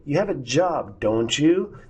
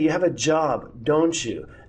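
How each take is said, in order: First: The voice rises at the end. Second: The voice falls at the end.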